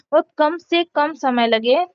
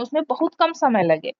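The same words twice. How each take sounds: First: Slower, leaning on "कम से कम"; stress on कम से कम. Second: Said in the usual way. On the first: Shown as a demonstration. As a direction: stretch out "कम से कम" and give it weight.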